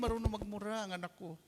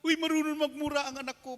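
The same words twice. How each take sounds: First: Said in the usual way. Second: Higher, louder gleeful boast; father delighted that his son swears, higher and louder; mock proud father. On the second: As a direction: brag about the kid with delight.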